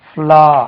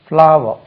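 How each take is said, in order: First: The word is cut short to one syllable. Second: The word is said in full with two syllables. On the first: The speaker calls it wrong. "நம்ம மக்கள் வந்து ஃப்ளா ஃப்ளா ஃப்ளா அப்படின்னு உச்சரிப்போம்" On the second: The speaker calls it right. "அது ஃப்ளா என்று உச்சரிக்க கூடாது"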